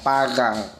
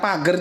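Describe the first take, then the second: First: It is said with a Lampung-accented R. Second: It is said with a standard Indonesian R.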